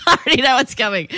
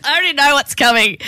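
First: A real laugh rolled into the line; amused knowing repeat. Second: Pitched up and louder, keen to hear it; bright teasing anticipation; eager anticipation. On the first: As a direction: giggle through it, delighted. Listener laughing at the setup. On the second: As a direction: lean in, already knowing the punchline. Listener anticipating the punchline. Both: Real, not acted.

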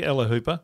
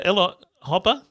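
First: "Hooper" with a long oo; corrected surname. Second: "Hopper" with a short o; mispronounced surname. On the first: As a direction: say "Hooper" to rhyme with "trooper". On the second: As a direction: say "Hopper" to rhyme with "copper". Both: Real, not acted.

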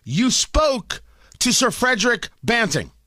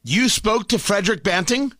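First: Spoke hit hard, falling flat statement; stress on spoke. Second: Rising disbelieving question on Banting; incredulous question. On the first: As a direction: pin him down, lean on spoke. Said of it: "make sure we're all on the same page". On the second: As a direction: ask it as if you can't believe it, voice going up. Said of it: "Just want to be clear". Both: Shown as a demonstration.

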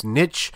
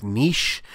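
First: Niche with a short i, ending in ch; niche as NITCH. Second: Niche with a long ee, ending in sh; niche as NEESH. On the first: Giving his own side of the debate, niche as NITCH. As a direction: say niche to rhyme with pitch. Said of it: "I believe it's niche". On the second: Giving his wife's side of the debate, niche as NEESH. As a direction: say niche to rhyme with leash. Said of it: "My wife believes it's niche". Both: Shown as a demonstration.

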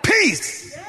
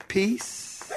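First: High, falling cry of command; sharp, high order; commanding take. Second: Soft, small, questioning; soft, tentative word with a slight lift; timid take. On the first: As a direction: call it out with authority. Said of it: "I think he said". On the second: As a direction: say it meekly, with no command in it. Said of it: "I don't think he said". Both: Shown as a demonstration.

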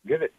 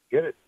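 No difference in how they are said.

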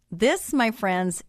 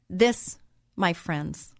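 First: Drawn-out "This, my friends" pitched a touch up; a rising, unhurried "This, my friends"; slow and lifted. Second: A solemn, drawn-out "This, my friends"; slow and weighty. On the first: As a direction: stretch "This" slowly and keep it up. Repeats it slowly, lifted. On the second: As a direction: lean on "This" and let it fall slowly. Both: Acted.

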